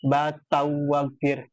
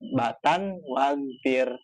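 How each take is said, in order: First: The n merges into the following w sound. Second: The n is pronounced clearly before the w. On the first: The speaker calls it wrong. "karena tanwin ketemu waw dibacanya Fabli tahu batau wagfir ngikutin tajwid" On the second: The speaker calls it right. "jadi diidhar"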